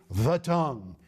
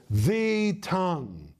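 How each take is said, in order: First: Said in the usual way. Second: "the tongue" drawn out slowly, the article leaned on; slow stress on the tongue. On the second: Shown as a demonstration. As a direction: weigh each word of "the tongue". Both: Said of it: "again, it has a definite article".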